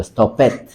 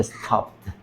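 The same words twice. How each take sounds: First: Stopped mispronounced as two syllables, "stop-et"; -ed as extra syllable. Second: Stopped as one syllable, "stopt"; -ed without vowel. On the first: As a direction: sound out the -ed in "stopped" as "et". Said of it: "Si fuera una T o una D, ahí sí". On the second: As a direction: end "stopped" straight on the consonants, no vowel. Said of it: "Por el momento, pues, solamente". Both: Shown as a demonstration.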